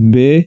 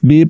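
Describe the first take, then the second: First: The vowel is an ay sound. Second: The vowel is a pure long ee. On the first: The speaker calls it wrong. "بے نہیں پڑھنا، یہ مجہول پڑھا جائے گا" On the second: The speaker calls it right. "بی پڑھنا ہے"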